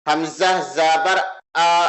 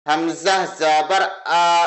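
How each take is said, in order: The two takes are said the same way.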